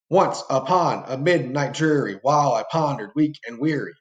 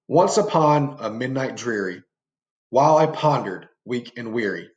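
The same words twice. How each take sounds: First: It is read in a happy, upbeat manner. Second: It is read in a dark, gloomy manner. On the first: "That's more of a happy, upbeat meter" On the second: "it makes this stanza or these lines more dark and gloomy"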